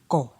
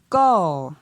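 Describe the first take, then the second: First: The syllable is said on a low tone. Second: The syllable is said on a falling tone. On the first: "Pour un ton bas" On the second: "Et pour un ton descendant"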